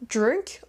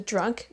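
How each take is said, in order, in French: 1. La voyelle est déformée, plus proche de drink. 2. La voyelle est la voyelle claire de drunk. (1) "vous le prononcez mal" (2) "au lieu de drunk"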